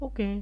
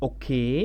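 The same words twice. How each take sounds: First: The voice stays level and casual. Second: The voice rises at the end. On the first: A casual acknowledgement. "Normally আমি একটা casually বলছি" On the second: Asking whether something is right. "লাস্টে আমি দেখেন একটু stress দিচ্ছি, একটু লম্বাটা টোনটাকে বাড়াচ্ছি"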